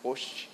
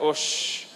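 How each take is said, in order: First: It sounds pleased and accepting. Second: It sounds indignant and rejecting. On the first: The speaker accepts the compliment happily. "Você está dizendo, muito bom, já é" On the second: The speaker rejects the claim outright. "Você diz, que é isso, rapaz? Claro que não"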